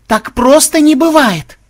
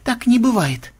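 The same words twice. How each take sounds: First: Very high, loud, drawn-out shriek; shrill cry of outrage; outraged outburst. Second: High, restrained denial; composed but strained refusal; controlled disbelief. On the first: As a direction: explode into slow, shouted disbelief. Melissa's denial bursts into outrage. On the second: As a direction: deny it firmly without raising volume. Melissa's denial before she explodes. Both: Acted.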